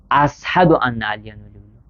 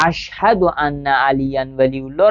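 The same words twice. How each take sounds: First: اشهد with an s sound in place of sh; shin said as sin. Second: Said in the usual way. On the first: Retold or imitated. Teacher shows students a learner's error, اشهد said with s for sh. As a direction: mispronounce اشهد as "as-hadu", s for sh. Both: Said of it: "به جای شین سین میگه".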